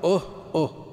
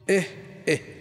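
First: The sound is said with a u vowel. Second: The sound is said with an i vowel. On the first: "والضم" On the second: "بالكسر"

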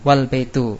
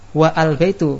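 First: The 'a' of 'al' is dropped and merged. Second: The 'a' of 'al' is sounded as separate syllable. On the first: The speaker calls it right. "menjadi wal baitu" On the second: The speaker calls it wrong. "bukan wa al baitu. Kalau wa al baitu salah"

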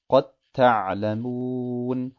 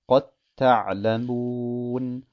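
Both takes have the same delivery.

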